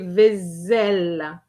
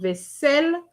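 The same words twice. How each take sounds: First: The middle consonant is a buzzing z sound. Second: The middle consonant is a hissing s sound. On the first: The speaker calls it wrong. "an S between two vowels give you a Z sound" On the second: The speaker calls it right. "you need to double your S"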